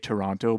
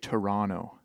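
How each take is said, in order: First: The second T is pronounced clearly. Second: The second T is dropped or barely heard. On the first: This is how the other person might say it. "You might say Toronto" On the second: This is how the speaker says it. "but I say Toronto. Like no T"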